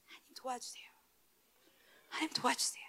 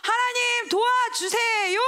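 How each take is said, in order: First: Barely voiced, much softer plea; whispered prayer. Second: Slow, high, loud plea; crying out to God. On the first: Believer quietly begging God for help, whispered. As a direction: breathe the prayer almost silently. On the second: Believer crying out to God for help, loud and slow. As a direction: stretch it out as a desperate prayer. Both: Shown as a demonstration.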